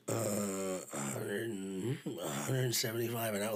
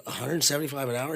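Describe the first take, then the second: First: Imitating a hesitant, reluctant price offer; retold reluctant quote, drawn out; really reluctant. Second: "A hundred seventy-five an hour?" repeated with a questioning rise; retold checking question on "seventy-five an hour", in a fuller voice; questioning echo. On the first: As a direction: offer the figure haltingly, low and soft. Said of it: "like, really reluctant". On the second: Repeats the reluctant offer as question.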